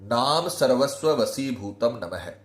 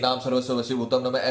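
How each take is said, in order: First: The mantra is spoken slowly and deliberately. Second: The mantra is rattled off quickly. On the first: The speaker calls it right. "धीरे धीरे आपको मंत्र बोलना है" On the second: The speaker calls it wrong. "जल्दी जल्दी नहीं, ... ऐसे नहीं"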